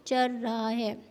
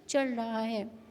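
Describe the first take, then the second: No difference in how they are said.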